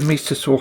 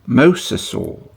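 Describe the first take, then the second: First: The first syllable sounds like 'my'. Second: The first syllable sounds like 'mos'. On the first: The speaker calls it wrong. "I've been saying it wrong" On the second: The speaker calls it right.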